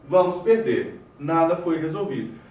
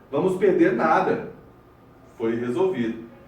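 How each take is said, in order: First: There is a pause after 'perder'. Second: There is a pause after 'nada'.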